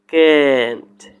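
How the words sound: It is said in an American accent. "and American this word accent or pronunciation can't"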